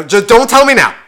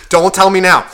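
First: Loud, irritated cut-off; annoyed snap. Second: Loud, irritated retort; annoyed snap again. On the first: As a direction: bark it at the chatty driver. Snapping at radio-volume back-seat driver. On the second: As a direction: shut him down firmly. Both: Retold or imitated.

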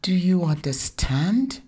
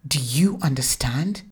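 First: Put-on higher little girl's voice, rising question; child echoing the demand. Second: Stern mother asking the cowering husband; authoritative mother. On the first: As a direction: copy mom's demand in a child's voice. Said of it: "Zainab's elocution was perfect". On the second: Acted. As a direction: press him for an answer. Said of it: "this authoritative tone".

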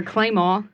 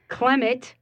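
First: Claymore said the Saint John Parish way, KLAY-maw; local pronunciation. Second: Clement pronounced KLEM-it; standard pronunciation. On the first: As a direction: say Claymore as the local form of Clement, no final t. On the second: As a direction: say Clement with a short e in the first syllable. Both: Shown as a demonstration. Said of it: "That's how we say it".

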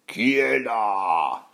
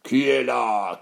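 First: Long, drawn-out troll growl; stretched-out menacing challenge; rumbling troll. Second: Troll growl, less drawn out; menacing troll at a brisker clip; roaring troll. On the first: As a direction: growl it very slowly as a hungry troll. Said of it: "gronda le troll affamé". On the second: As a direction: growl the challenge straight away. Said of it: "rugit aussitôt". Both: Acted.

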